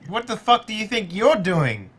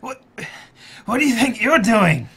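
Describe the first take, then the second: First: The voice sounds healthy and unhurt. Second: The voice sounds hurt and pained.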